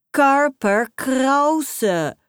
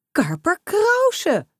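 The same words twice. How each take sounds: First: "Karper Krause" hoger, luider en heel traag gerekt; de naam genietend uitrekken; overdreven naam roepen. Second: "Karper Krause" veel hoger, luider en langzaam uitgerekt; overdreven uitgesproken naam. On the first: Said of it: "roept ze voor de derde keer". ("Karper Krause" nog trager en overdreven uitgerekt) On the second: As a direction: zwijmelend de naam uitgalmen. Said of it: "zijn naam wel heel overdreven uitspreekt". ("Karper Krause" overdreven hoog en gerekt uitgesproken) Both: A narrator's reading.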